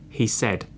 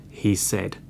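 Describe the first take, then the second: No difference in how they are said.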